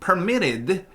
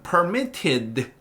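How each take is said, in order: First: American accent with a softened, blurred t. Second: British accent with a crisp t sound. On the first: "미국식 영어로는 permitted 이렇게 t를 좀 뭉개겠죠" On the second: "영국식 영어에선"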